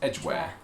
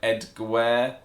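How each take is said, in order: First: The first part sounds the same as the word edge. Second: The name is sounded out the way it is spelt. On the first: The speaker calls it right. "it's the same as the word edge" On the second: The speaker calls it wrong. "pronounce it the way it's spelt"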